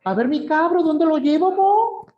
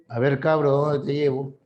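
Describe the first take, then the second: First: Put-on much higher, sing-song Chilean street accent; a Santiago cabbie cheerfully offering a young tourist a ride; high, lilting Chilean accent, friendly and casual; Chilean taxi driver. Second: A slightly lower, knowing tone of a Lima cabbie; lightly voiced Lima taxi driver with a sly double meaning on cabro; a hint of a suggestive Lima taxi driver. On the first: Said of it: "se para a tu lado y dice". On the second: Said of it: "se para un taxista a tu lado".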